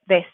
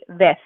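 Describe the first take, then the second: First: The word ends with a hissing S sound. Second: The word ends with a lisped TH sound. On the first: "a soft S sound" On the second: "Spain Spanish accent, it'd be ves with a T H sound"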